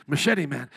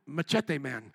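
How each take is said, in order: First: Said in the usual way. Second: Machete with a Spanish-style "tay" ending; Spanish-style accent. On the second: Shown as a demonstration. Preacher recalling his friend's nickname, Spanish-style accent. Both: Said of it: "you gotta say with the accent".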